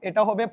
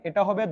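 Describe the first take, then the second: No difference in how they are said.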